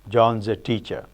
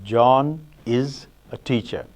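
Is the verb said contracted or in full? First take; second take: contracted; in full. First: The verb is contracted onto the name. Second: The verb is said in full. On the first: "Phonological phrase, you can have" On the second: "syntactic phrase, we have"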